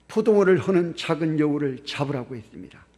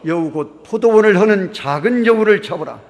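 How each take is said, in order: First: Said in the usual way. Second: '포도원을' read out loudly and deliberately with the congregation; louder unison scripture reading. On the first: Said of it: "아가서 이 장 십오 절입니다". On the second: Shown as a demonstration. Pastor leading the congregation in reading the verse, loud and deliberate. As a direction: read it aloud with the whole church. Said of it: "시작".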